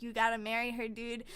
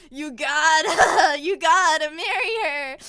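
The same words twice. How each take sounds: First: Low, casual nudge from a father; lightly voiced emperor dad; urging dad. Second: Very loud, drawn-out mock bellow; hammed-up fatherly insistence; insistent dad. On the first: Dad urges prince by mind magic. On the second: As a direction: belt out the order, breaking into laughter. Dad insists, repeated louder.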